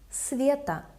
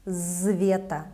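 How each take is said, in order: First: The word begins with a voiceless s sound. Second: The word begins with a voiced z sound. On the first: The speaker calls it right. "S remains voiceless. It doesn't take the voice of V" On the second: The speaker calls it wrong. "we don't say Zveta"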